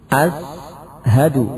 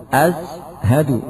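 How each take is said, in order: Both takes have the same delivery.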